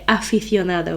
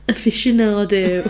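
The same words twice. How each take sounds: First: The word is pronounced with Spanish sounds. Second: The word is pronounced with English sounds. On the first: This is how Spanish speakers say the word. "We don't say aficionado" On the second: This is how English speakers say the word. "We just pronounce it like English people"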